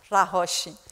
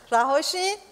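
First: «رهاشین» low and soft, falling at the end; falling statement. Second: «رهاشین» climbing to a questioning end; rising question. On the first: Preacher tells congregation to be freed, falling statement. Statement, then same word asked. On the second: Preacher checks with congregation, rising question. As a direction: ask «رهاشین» softly, lifting the final syllable. Same word repeated as a question. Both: Real, not acted.

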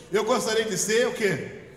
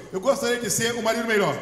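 First: Teasing sung-out question, loud; mock singsong echo. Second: Loud, quick call for the church to repeat; loud lead line. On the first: Pastor teasing wives who sang the line. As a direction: imitate the wives singing it back. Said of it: "cantou as esposas". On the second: Shown as a demonstration. Pastor leading husbands in a loud repeat-after-me. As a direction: belt it out for them to echo. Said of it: "Agora fala assim".

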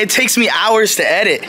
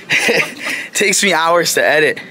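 First: Said in the usual way. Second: Laughing through the words, slower; can't finish without giggling. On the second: Acted. Vlogger repeating his line to camera, laughing through it.

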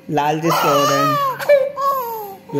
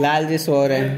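First: High, slow sing-song hush. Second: Said in the usual way. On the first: Acted. Hushing the noisy child so the deity can sleep, high and slow. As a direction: stretch it out high like a lullaby to hush them.

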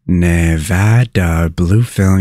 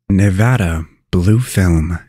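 First: "Nevada Blue Film" stretched out at half speed; slow pronunciation demo. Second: Said in the usual way. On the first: Shown as a demonstration. Host teaching viewers how to pronounce the state, slow pronunciation demo. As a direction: say "Nevada Blue Film" very slowly, as a model to copy.

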